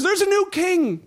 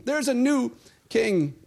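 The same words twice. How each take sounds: First: Higher, ringing announcement of a new king; excited proclamation. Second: Slower, calm repeat; slow, settled restatement. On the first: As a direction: proclaim it high and bright. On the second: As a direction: let it land slowly and simply. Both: Shown as a demonstration.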